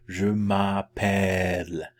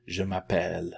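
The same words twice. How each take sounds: First: Slow, drawn-out "Je m'appelle"; open "eh" vowel. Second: Said in the usual way. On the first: Shown as a demonstration. Teacher helps learners remember the vowel, slow "Je m'appelle". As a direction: stretch the "eh" in "m'appelle" like bed. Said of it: "is like the eh of".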